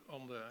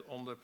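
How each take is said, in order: Both takes have the same delivery.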